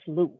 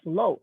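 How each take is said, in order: First: The name is said with an 'oo' vowel. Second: The name is said with an 'oh' vowel. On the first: The speaker calls it right. "Actually, my name is Lou" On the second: The speaker calls it wrong. "I know you guys will all mispronounce it as low"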